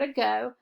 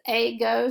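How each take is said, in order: First: The first vowel is a weak schwa sound. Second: The first vowel is a long A sound.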